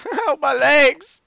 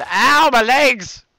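First: Higher, slow cry through a laugh; giggling fake injury yell; laughing mock pain. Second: Drawn-out, louder ow of fake pain; slow hammed-up cry of pain; mock pain yell. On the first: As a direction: laugh while faking the pain. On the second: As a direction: yell it like you fell hard. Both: Pretend injury in game.

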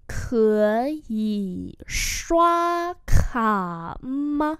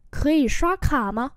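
First: Very slow, syllable by syllable; slow-motion pronunciation model; slow demonstration. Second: Said in the usual way. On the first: Shown as a demonstration. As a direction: draw out each tone for learners. Teacher repeats slowly for learners.

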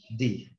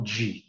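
First: "Di" with a plain tongue-tip D; English letter D, hard "Di". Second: "di" said as "dji"; softened "dji". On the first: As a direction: say "Di" cleanly, no "dji". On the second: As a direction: soften the D of "di" into a J-like sound. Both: Shown as a demonstration. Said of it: "Não di".

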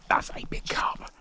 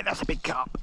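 First: Breathless awed whisper. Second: Said in the usual way. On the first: Real, not acted. Angler awed by his catch, whispering. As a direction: hush it, awed by the big fish.

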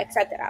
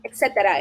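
First: Etcétera breathed out in a whisper; a whispered etcétera trailing away; whispered aside. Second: Said in the usual way. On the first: Shown as a demonstration. Trailing off a list.

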